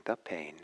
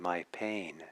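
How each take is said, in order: First: "the pain" with "the" stressed, then falling; "the" set out against "my", falling close. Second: "my pain" with the weight on "my"; "my" set out as the contrasting word; stress on MY. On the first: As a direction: lean on the word "the", letting "pain" drop. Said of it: "is different than saying "the pain". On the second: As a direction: lean on the word "my" to claim the pain. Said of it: "is different than saying". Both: Shown as a demonstration.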